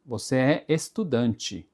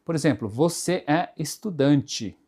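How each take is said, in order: First: "estudante" said slowly, final E sounding like I, estudanchi; careful "Você é estudante." with the last E as I; spoken Portuguese pronunciation. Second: Said in the usual way. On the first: Shown as a demonstration. Teacher to Japanese students, slow spoken form. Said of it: "nós falamos estudante". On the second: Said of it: "Na hora de você escrever".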